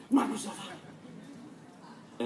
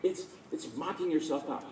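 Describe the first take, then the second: First: "Mock yourself out" breathed out very slowly in a whisper; hushed, slow lesson from a father. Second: Said in the usual way. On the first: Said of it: "It's like". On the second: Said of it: "he would say".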